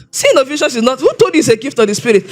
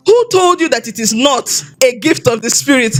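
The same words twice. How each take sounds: First: Mildly incredulous, quick rebuke; retold scoffing challenge. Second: Retold calm reassurance; calm, matter-of-fact. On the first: Man challenges a youth's answer at church, mock scoffing. Retelling a man's scornful challenge. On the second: Pastor answers her confession after the meeting, calm and matter-of-fact. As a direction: imitate a pastor asking evenly, unhurried. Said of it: "he said it so calmly".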